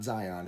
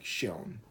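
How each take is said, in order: First: The name begins without a sh sound. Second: The name begins with a sh sound. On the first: The speaker calls it wrong. "it's not Zion" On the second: The speaker calls it right. "the X is pronounced like a sh"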